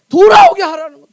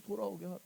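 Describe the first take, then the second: First: Emphatic command. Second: Very soft and low; low, quiet echo of a command; hushed repeat. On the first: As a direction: preach it out forcefully at full volume. Preacher stresses the key command. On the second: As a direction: drop right down in pitch and volume. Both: Real, not acted.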